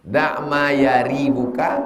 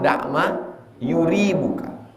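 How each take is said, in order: First: The verb's first vowel is an 'a' sound. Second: The verb's first vowel is a 'u' sound. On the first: "bi fathil ha, hanya dibaca fathah" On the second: "wa dhammiha... dua-duanya betul"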